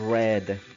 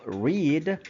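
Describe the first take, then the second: First: The vowel is short, like 'red'. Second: The vowel is long, like 'reed'. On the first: It is the past tense. "en pasado simple como read, R E D" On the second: It is the present tense. "en presente simple se va a pronunciar como read, R I D"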